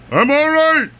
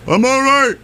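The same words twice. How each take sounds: First: Put-on New England accent. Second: Put-on thick New England accent, high and loud. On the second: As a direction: call out like a tumbled Bostonian. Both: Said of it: "in his inimitable New England thick accent".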